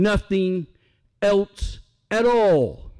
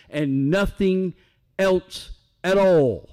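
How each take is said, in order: First: Slowed, deliberate at all, falling; preacher repeats the refrain to the congregation even slower; emphatic refrain. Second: Slow, weighty stress on all; preacher drives home that nothing else counts; emphatic refrain. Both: Shown as a demonstration. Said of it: "repeated refrain".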